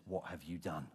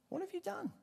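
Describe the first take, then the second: First: Lower, grave demand; stern rebuke. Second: Much higher, shocked repeat; incredulous cry. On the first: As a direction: ask it low and heavy like a judge. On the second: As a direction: shoot the question up in disbelief. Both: Retold or imitated. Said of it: "Samuel comes along and he says".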